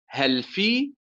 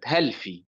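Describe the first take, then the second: First: Each of the two words carries its own stress. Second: The two words share one stress like one word. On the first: The speaker calls it right. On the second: The speaker calls it wrong.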